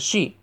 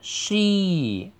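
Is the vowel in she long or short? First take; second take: short; long. First: The vowel is cut short. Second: The vowel is held long. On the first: The speaker calls it wrong. "不要读成she" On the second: The speaker calls it right. "同样的也是长音"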